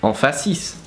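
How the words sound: It is said smoothly in a French accent. "In French would go"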